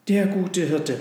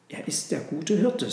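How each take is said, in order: First: Louder, higher call of "Hirte". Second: The donkey calmly answering the camels. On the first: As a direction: echo it aloud in awe. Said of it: "riefen die Kamele". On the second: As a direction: say it simply and steadily. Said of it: "sagte der Esel ruhig". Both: Acted.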